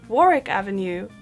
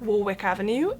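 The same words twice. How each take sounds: First: The middle W is left silent. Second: The middle W is clearly pronounced. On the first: The speaker calls it right. "pronounced like it had two R's and no W in the middle" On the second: The speaker calls it wrong. "it's actually not Warwick Avenue"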